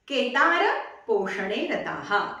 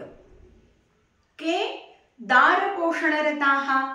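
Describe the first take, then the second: First: Ke and dara run together as one word. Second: There is a break between ke and dara. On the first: The farmer is devoted to supporting his family. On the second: It asks who is devoted to supporting his wife.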